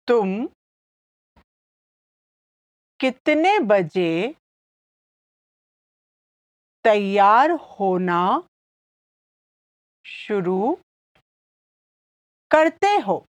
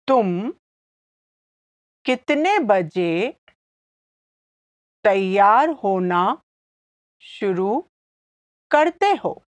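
First: It is said slowly. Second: It is said at normal speed.

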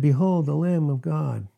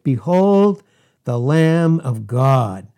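First: It is said quietly and flatly. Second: It is yelled loudly in awe.

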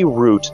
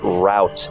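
First: The word is said with a long 'oo' vowel. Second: The word is said with an 'ow' vowel. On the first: The speaker calls it right. "E's mean that the vowels are supposed to be long. So it's supposed to be route" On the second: The speaker calls it wrong. "not route"

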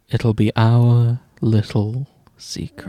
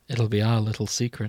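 First: The line sounds even creepier and more unsettling. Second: The line sounds creepy and unsettling. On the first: "how about this? ... That's worse" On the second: "There was something about the way you said it that triggered my fight or flight response"

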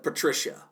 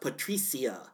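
First: The name is said with English-style sounds. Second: The name is said with Spanish-style sounds. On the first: The speaker calls it wrong. "instead of Patricia" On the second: The speaker calls it right. "her name is pronounced Patricia"

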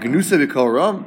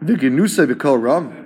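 First: It is said as an amazed question. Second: It is said as a plain statement.

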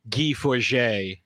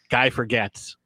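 First: The surname is not said like English 'forget'. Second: The surname is said like English 'forget'. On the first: This is how the name is actually pronounced. "In the pronunciation, there was a guy, his name is Guy Forget" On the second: This is how the name looks when read as written. "But if you were just reading it"

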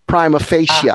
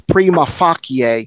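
First: It is said with an English pronunciation. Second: It is said with a Latin pronunciation. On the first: "In English, it's pronounced prima facie" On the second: "In Latin, it's prima facie"

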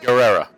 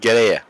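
First: The name is said with an American pronunciation. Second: The name is said with a native Spanish pronunciation. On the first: The speaker calls it wrong. "Or as they'll say" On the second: The speaker calls it right. "But it is Guerrera"

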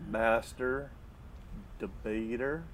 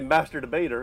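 First: The phrase is said slowly with a pause between words. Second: The phrase is said quickly without a pause between words. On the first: It sounds like dropping hints. The speaker calls it wrong. "would you want us to say it slower?" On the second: Listeners become desensitized to it. The speaker calls it right. "pulling off the Band-Aid real quick when you say it quick"

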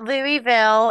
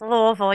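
First: The middle i sound is clearly pronounced. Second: The middle i sound is swallowed. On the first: The speaker calls it wrong. "It's not Louisville" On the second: The speaker calls it right. "You swallow the I"

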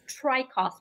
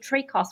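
First: The name is said with its native pronunciation. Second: The name is said with an American pronunciation. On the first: This is the name's original pronunciation. "the actual correct pronunciation is Trakos" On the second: This is how Americans usually say the name. "Americans say Trakos, which I think sounds so much better"

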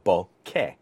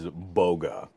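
First: The middle consonant is a k sound. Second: The middle consonant is a g sound. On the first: The speaker calls it right. "the sort of general pronunciation would be bokeh" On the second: The speaker calls it wrong. "the thing I'm trying to get people away from is boga, where it's almost like B-O-G-U-A"

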